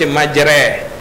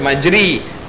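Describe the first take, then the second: First: The vowel after the r is a middle e. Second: The vowel after the r is a close i. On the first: The speaker calls it right. "Dia baris tengah-tengah" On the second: The speaker calls it wrong. "dia tak baca majri"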